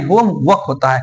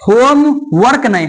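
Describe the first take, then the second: First: होम वर्क as home-wuk, r dropped, lower; होम वर्क with no r, settled and low; silent r. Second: होम वर्क with a voiced r, higher; wrong rhotic r. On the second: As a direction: say होम वर्क with a rolled r, as the mistake. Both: Shown as a demonstration.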